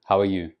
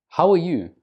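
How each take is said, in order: First: "How are you?" kept low, with no lift; flat intonation. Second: "How are you?" arched high on "are"; raised intonation. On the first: Asking without interest in the other person, flat intonation. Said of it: "rather than". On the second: Showing interest in the other person, raised intonation. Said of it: "use a raised intonation". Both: Shown as a demonstration.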